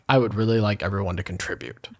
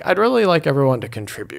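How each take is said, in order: First: The voice falls on the last words. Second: The voice rises on the last words. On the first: It sounds final and unwelcoming. The speaker calls it wrong. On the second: It sounds open and inviting. The speaker calls it right.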